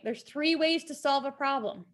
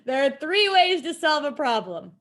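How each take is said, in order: First: It is said at normal volume. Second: It is said louder.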